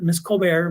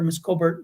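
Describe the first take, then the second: First: "Colbert" ending like "bear"; variant pronunciation. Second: Said in the usual way. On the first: Real, not acted. Recalling the teacher's name, "Colbert" said as "Col-bair".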